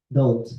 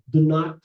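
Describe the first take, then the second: First: It is said as one contracted word. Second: It is said as two full words.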